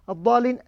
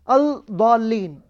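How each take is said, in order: First: The L sound is silent, merged into the next consonant. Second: The L sound is clearly pronounced before the next consonant. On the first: The speaker calls it right. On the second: The speaker calls it wrong.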